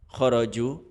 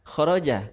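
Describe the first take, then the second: First: The word ends with the vowel u. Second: The word ends with the vowel a. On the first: The speaker calls it wrong. "khoroju atau khoroji" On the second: The speaker calls it right. "yang mana adalah khoroja karena dia fi'il madhi"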